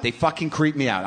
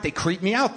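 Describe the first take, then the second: First: "creep" leaned on with a falling end; stress on creep. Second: Said in the usual way. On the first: Shown as a demonstration. Repeating his discomfort, leaning on "creep". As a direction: hit "creep" hard and let it drop.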